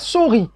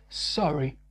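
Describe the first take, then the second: First: It is said with a French accent. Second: It is said with a natural English accent. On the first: The speaker calls it wrong. "ne dites pas sorry" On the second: The speaker calls it right. "No, c'est sorry"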